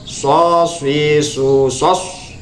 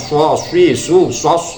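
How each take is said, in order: First: The lips are only slightly rounded. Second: The lips are pushed out in exaggerated rounding. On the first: The speaker calls it right. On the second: The speaker calls it wrong. "jangan berlebihan, misalnya ... nggak usah seperti itu"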